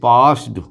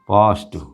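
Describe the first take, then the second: First: The word ends with a d sound. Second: The word ends with a t sound. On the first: The speaker calls it wrong. "ये आपका पास्ड बिल्कुल wrong है" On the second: The speaker calls it right. "टे अंत में आना चाहिए"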